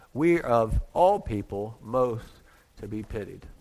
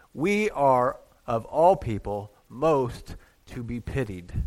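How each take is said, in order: No difference in how they are said.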